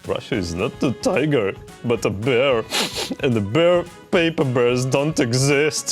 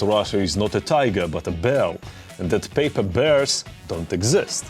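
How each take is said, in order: First: It is said in a whiny, offended voice. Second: It is said in a plain reporting voice.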